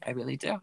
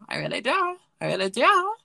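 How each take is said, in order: First: Said in the usual way. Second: Higher and louder, insisting; emphatic repeat. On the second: Shown as a demonstration. Podcaster insisting to listeners, louder and higher. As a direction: say it again with full conviction. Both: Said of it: "repeats with rising force".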